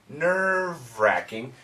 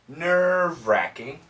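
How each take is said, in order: No difference in how they are said.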